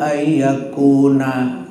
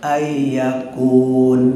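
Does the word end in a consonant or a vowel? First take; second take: vowel; consonant. First: The word ends in a vowel. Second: The word ends in a consonant. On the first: The speaker calls it wrong. "nggak kuatnya begitu tuh, jangan" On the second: The speaker calls it right. "huruf terakhir harus ma mati"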